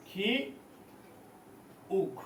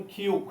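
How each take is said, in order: First: খি, a long pause, then উক; syllable by syllable. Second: Said in the usual way. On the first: Shown as a demonstration. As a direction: sound out "খি উক" as two separate pieces. Teacher breaks up letter name. ("খি উক" থেমে থেমে আলাদা করে)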